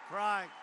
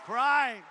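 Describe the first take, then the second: First: Said in the usual way. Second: A loud, mocking "Crying" to sneer at them. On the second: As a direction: spit out "Crying" to ridicule. Mocks opponents' tears.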